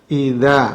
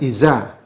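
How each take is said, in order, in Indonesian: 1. Konsonannya bunyi th lembut. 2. Konsonannya bunyi z yang mendesis. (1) "Yang benar adalah idza" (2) "bukan iza"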